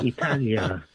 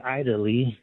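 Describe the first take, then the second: First: Italia said as ee-TAH-lee-a; native-style pronunciation. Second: Italy said as EYE-dah-lee; mispronunciation example. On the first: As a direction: start Italia with EE, stress on TAH. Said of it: "we say Italia". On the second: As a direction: open Italy with a long EYE. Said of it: "we don't say". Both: Shown as a demonstration.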